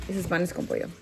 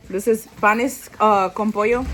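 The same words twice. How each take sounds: First: Softer, calm restatement of "panes con pollo"; low-key repeat of the dish name; quiet repeat. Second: Proud food reveal; loud announce. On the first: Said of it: "restating the dish name". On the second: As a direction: announce "panes, uh, con pollo" with a rising call. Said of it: "first announcement of dish". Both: Real, not acted.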